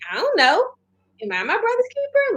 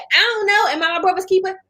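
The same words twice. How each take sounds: First: It is said as a sincere, innocent question. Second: It is said with a defiant, snappy attitude. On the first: The speaker genuinely did not know it was his duty. The speaker calls it right. "Like, I didn't know I was supposed to be looking after him" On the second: The speaker is talking back rudely. The speaker calls it wrong. "That's attitude"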